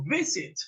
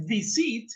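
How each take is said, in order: First: Visit stressed on the first syllable, VI-sit; correct first-syllable stress. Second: Visit stressed on the last syllable, vi-SIT; wrong stress demo. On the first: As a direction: put the accent at the front of visit. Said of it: "no está acentuada la última". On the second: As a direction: show visit wrongly accented on the end. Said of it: "sino visit". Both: Shown as a demonstration.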